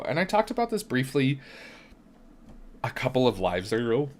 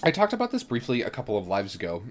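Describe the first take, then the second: First: Talking through hiccups. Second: Said in the usual way. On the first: Real, not acted. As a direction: hiccups breaking the words. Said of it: "I've got, like, the hiccups". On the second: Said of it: "Oh, coffee. Okay".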